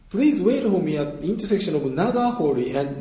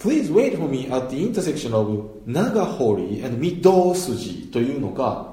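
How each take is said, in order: First: Please wait for me at the intersection of長堀and with English stress, slowly; 長堀and read like an English phrase, slowly. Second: Please wait for me at the intersection of長堀アンド御堂筋, 御堂筋 said flat in Japanese style, slowly; Japanese-flat Midousuji. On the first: Teacher showing the English-style reading with stress. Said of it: "御堂の上にストレスが". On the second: Teacher showing the flat Japanese reading inside English. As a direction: read the street name flat with even Japanese pitch. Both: Shown as a demonstration.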